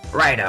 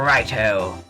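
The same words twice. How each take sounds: First: It is said in an American accent. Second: It is said in a British accent. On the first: "then I tried to make him American" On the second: "the voice I initially gave him, which was British"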